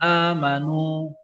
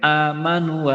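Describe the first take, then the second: First: The final vowel is held one full beat. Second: The final vowel is cut too short. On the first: The speaker calls it right. "panjangnya sama satu alif" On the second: The speaker calls it wrong. "nu-nya agak kependekan"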